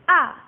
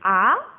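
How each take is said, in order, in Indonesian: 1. Nadanya turun tajam seperti suara marah. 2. Nadanya naik seperti suara orang terkejut. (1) "Yang keempat nadanya turun kayak orang marah. Disentak ya" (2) "nada kedua itu naik. Berarti bacanya kayak orang kaget"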